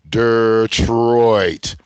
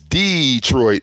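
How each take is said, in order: First: It is said as if spelled D-R-T. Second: It is said with the standard pronunciation. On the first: "they pronounce it like it's spelled D R T" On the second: "the way it's properly spelled"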